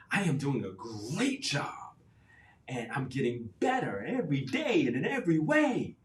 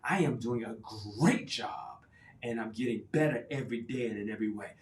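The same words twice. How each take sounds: First: Louder, higher, with a laugh; emotional affirmation. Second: Emphatic affirmation. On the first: Coach urging caregivers to feel it, excited. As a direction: put your whole body into it. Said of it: "put your emotion into it". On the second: Coach demonstrating a stronger affirmation, emphatic. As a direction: say it like you mean it. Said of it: "make it even stronger". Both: Shown as a demonstration.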